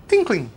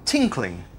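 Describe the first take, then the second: First: Tinkling said higher and bright, ringing like a bell; evocative tinkling. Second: Said in the usual way. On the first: Shown as a demonstration. Preacher showing how the word sounds, ringing Tinkling. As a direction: make Tinkling sound like what it names. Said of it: "sounds like the thing it's describing". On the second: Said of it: "For instance".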